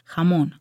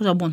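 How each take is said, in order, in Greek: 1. Η λέξη αρχίζει με έναν σκληρό, βραχνό ήχο 'kh'. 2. Η λέξη αρχίζει με τον ήχο 'z'. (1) "χαμόν λέγεται τελικά" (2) "το διάβαζα"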